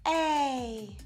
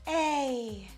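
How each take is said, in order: First: The vowel starts with an audible breath of air. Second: The vowel starts with an audible breath of air.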